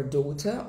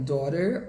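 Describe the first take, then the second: First: British "daughter", crisp T, rising, no R; sotaque britânico. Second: American "daughter", tapped T and final R; sotaque americano. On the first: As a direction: say "daughter" as "daw-tah", British. (sotaque britânico, T claro, sem R) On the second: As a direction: say "daughter" as "daw-der", American. (sotaque americano, com R final) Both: Shown as a demonstration. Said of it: "os diferentes tipos de sotaque".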